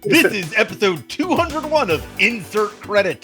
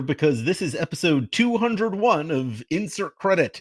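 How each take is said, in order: First: It is said with high energy. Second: It is said with low energy.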